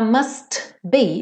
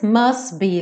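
First: The T at the end of must is pronounced. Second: The T at the end of must is dropped. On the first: The speaker calls it wrong. "Aqui ele também não fala must be" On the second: The speaker calls it right. "ele come o T"

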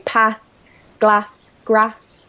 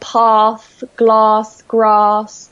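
First: The words are said with a Northern English vowel. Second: The words are said with the standard RP vowel. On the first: "I still keep some of my northern sounds" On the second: "I don't say path"

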